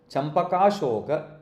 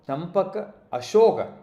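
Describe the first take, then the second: First: The two words run together into one flow. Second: The two words are said as separate words. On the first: This is how it is actually pronounced. "when you pronounce it in Sanskrit, it comes out as" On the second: This follows how the words are written. "the way it is it is written separately"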